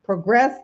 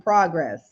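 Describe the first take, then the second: First: "Progress" as pruh-GRESS, weight on second syllable; verb pronunciation. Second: "progress" as PRAH-gress, open first vowel; noun pronunciation. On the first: Coach repeating the word that sounds differently, "Progress" said pruh-GRESS. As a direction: reduce the first vowel of "Progress": pruh-GRESS. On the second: Coach repeating the word that sounds differently, "progress" said PRAH-gress. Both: Shown as a demonstration. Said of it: "but sounds differently".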